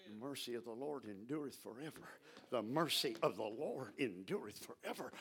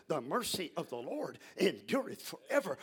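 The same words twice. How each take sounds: First: Low, soft muttering under the breath. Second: Said in the usual way. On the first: Shown as a demonstration. Preacher showing how to meditate, soft low muttering. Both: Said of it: "You just start mumbling".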